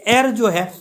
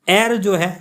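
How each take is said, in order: The two takes are said the same way.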